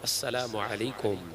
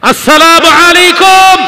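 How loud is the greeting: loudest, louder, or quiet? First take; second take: quiet; loudest. First: The greeting is said at a normal, quiet volume. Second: The greeting is said at its loudest volume. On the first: A first ordinary greeting at the door. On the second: A third greeting after still getting no answer.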